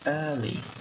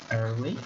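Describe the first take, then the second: First: It is said without the r sound. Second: It is said with the r sound pronounced.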